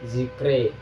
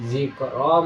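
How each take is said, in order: First: The final vowel is tilted toward an e sound. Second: The final vowel is an open a sound. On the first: "dibaca imalah" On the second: "bunyi awal"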